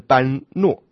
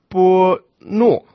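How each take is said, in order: First: The word is read as ban ruo. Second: The word is read as bo nuo. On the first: This is the literal reading of the characters. "如果照字面以国语来念呢，应该是般若啊，这就更加离梵音远了" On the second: This is the customary Buddhist reading. "先看般若这两个字呢，念作波诺"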